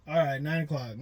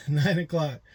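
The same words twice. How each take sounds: First: Said in the usual way. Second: Slow, disbelieving laugh through the words; amused, slowed repeat. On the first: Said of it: "repeats it laughing". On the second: Real, not acted. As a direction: chuckle at how late that is.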